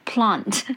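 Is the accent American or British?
British. It is said in a British accent.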